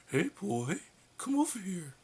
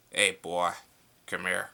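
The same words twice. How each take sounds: First: Much higher wrong take on Homer; squeaky missed attempt at Homer; failed Homer voice. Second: Put-on loud, gruff old-style Homer Simpson. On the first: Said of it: "Okay, not that". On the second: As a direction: bark it like early Homer. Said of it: "when he used to talk like this".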